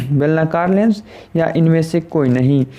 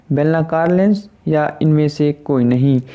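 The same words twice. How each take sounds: Both takes have the same delivery.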